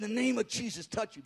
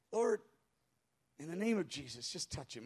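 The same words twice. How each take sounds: First: Said in the usual way. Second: Low, soft, discouraged mumble; whispered mutter. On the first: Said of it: "I had some, a little bit of, of faith". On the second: Retold or imitated. Discouraged pastor prays over a stranger, muttering. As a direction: trail down into a half-hearted murmur. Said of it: "I just kinda whispered it and muttered it".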